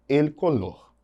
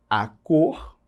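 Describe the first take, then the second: First: "el color" in Spanish, clear l sounds; careful Spanish "el color"; Spanish pronunciation. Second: Said in the usual way. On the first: Shown as a demonstration. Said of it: "em espanhol eu digo". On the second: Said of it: "femininos no português".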